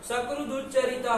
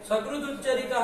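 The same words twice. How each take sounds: The two takes are said the same way.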